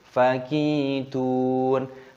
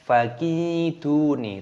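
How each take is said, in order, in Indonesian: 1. Kata ini berakhir dengan bunyi n biasa. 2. Huruf n terakhir diikuti oleh vokal. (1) "nunnya di sini dibaca sukun ataupun mati" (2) "jangan dibaca"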